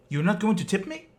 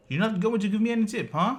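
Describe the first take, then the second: First: Demanding it higher and louder, offended; mock-indignant, high and loud, as the put-out driver; retelling a driver's high, loud outrage. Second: Faster, higher and louder, pressing the point; indignant demand. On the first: Angry driver demands tip, retold. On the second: Retold or imitated. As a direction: push the question again, fast and high. Driver repeats demand.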